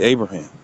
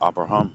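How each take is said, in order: First: The name is said the usual English way. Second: The name is built from separate Hebrew-style syllables. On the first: This is how most people say it. "But people usually say Abraham" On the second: This is the name's original form. "The Ah, the Ba, the Ra, the Ha, and the Ma, Abraham"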